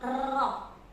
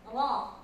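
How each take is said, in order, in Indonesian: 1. Huruf r memiliki getaran yang panjang dan berlebihan. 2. Huruf r hanya memiliki getaran yang ringan.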